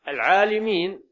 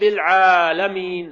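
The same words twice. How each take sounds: First: The vowel after the L is 'i'. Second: The vowel after the L is 'a'. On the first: It refers to the knowers. The speaker calls it wrong. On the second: It refers to the worlds. The speaker calls it right.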